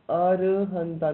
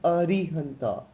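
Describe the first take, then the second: First: The second vowel is an 'a' sound. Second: The second vowel is an 'i' sound. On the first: The speaker calls it right. "It's Arahanta" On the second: The speaker calls it wrong. "not Arihanta"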